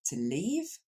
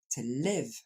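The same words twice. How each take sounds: First: "to leave" slowly, with a long ee. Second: "to live" slowly, with a short clipped i. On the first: Teacher contrasts "to leave" with "to live". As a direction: stretch the ee in "to leave". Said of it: "comme un I long". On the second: Teacher contrasts "to live" with "to leave". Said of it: "Alors que vivre". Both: Shown as a demonstration.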